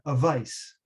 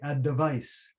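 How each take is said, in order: First: The D sound is left out entirely. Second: A short vowel is inserted between D and V. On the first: It could sound like a completely different word. The speaker calls it wrong. "without the D" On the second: The listener hears the word clearly articulated. The speaker calls it right. "I stopped on the D, a little vowel sound, and then said the V"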